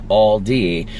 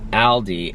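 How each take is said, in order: First: The name is said with an English pronunciation. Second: The name is said with a German pronunciation. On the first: "I pronounce it like Aldi when I'm speaking English" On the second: "it sounds a bit more like Aldi in German"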